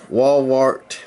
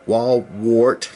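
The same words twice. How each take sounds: The two takes are said the same way.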